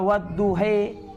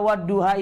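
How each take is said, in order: First: The final vowel is an 'e' sound. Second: The final vowel is an open 'a' sound. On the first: "bisa dibaca wadduhe" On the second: "Kenapa wadduha itu bisa dibaca wadduhe?"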